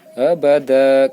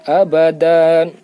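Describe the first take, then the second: First: The word ends on a plain vowel. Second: The word ends with an n sound. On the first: The reader stops at this word. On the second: The reading continues without stopping.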